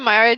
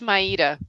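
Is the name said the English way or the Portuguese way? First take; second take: English; Portuguese. First: The name is said the English way. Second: The name is said with a soft Portuguese R. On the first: This is the easier form used in the US. "I go by Myra just because it's so much easier" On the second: This is the original Portuguese form of the name. "it's Maida"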